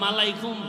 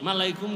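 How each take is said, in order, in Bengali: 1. শব্দটি ম-ধ্বনি দিয়ে শুরু হয়। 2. শব্দটি ম-ধ্বনি দিয়ে শুরু হয়।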